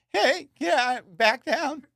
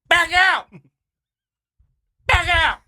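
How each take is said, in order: First: It is said in a weak, whiny voice. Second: It is said in a strong, forceful voice.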